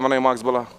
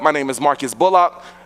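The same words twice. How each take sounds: First: The name is said casually and mumbled. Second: The name is said crisply and clearly. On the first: The speaker does not care if the name is remembered. The speaker calls it wrong. "I wasn't like" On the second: The speaker wants the name remembered. The speaker calls it right. "I was intentional about being enunciating my name"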